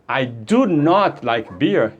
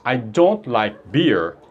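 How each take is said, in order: First: The negative is said in full, with emphasis. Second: The negative is contracted, in a plain delivery. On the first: The speaker really does not like it. "eu estou enfatizando" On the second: It is a neutral statement of dislike. "é uma frase normal"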